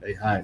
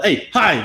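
First: The greeting is said softly and gently. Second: The greeting is shouted loudly.

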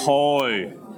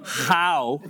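First: The vowel is a rounded Northern Irish 'oh'. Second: The vowel is a flat English 'ow'. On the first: The speaker calls it right. "get that proper oh" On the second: The speaker calls it wrong. "Not how"

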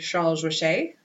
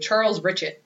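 First: The name is said the French way. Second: The name is said with a strong American accent.

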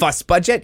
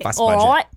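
First: It is said in the speaker's ordinary accent. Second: It is said in a put-on Cockney accent.

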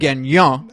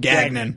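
First: The name has a French-Canadian pronunciation. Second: The name has an American pronunciation. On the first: "the French-Canadian pronunciation" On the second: "everyone in America just calls him Gagnon"

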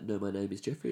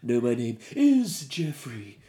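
First: It is said in a plain, everyday voice. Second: It is said in a grand theatrical voice.

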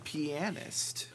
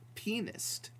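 First: The word does not sound like 'penis'. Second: The word sounds close to 'penis'.

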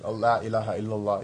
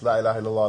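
First: It is said once, calmly, after a long pause. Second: It is repeated hurriedly, back to back without pause. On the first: The speaker calls it right. "just after like a minute" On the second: The speaker calls it wrong. "not like super, like just La ilaha illallah, La ilaha illallah, not like that"

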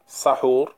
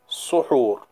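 First: The first vowel is an open 'a'. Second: The first vowel is a rounded 'u'. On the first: "the seen in the word sahur can be fatha" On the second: "it can also be suhur with dhamma"

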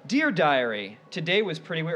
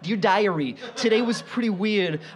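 First: It is said in a normal speaking voice. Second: It is said in a put-on character voice.

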